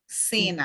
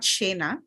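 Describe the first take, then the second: First: The syllable begins with an s sound. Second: The syllable begins with a sh sound. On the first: The speaker calls it right. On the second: The speaker calls it wrong. "not Shena"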